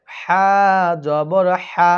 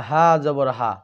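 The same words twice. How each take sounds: First: হা জবর হা said firmly and clear; correct pronunciation. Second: হা জবর হা dropped low and quick; wrong pronunciation. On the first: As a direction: model the right way. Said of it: "এটা বলতে হবে". (সঠিক উচ্চারণ) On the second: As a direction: mimic the mistake. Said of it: "অনেকেই আবার বলে". (ভুল উচ্চারণের নকল) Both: Shown as a demonstration.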